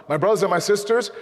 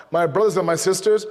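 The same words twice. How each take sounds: The two takes are said the same way.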